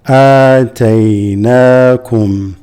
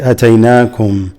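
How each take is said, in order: First: The first vowel is held long. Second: The first vowel is short. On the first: The speaker calls it right. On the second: The speaker calls it wrong.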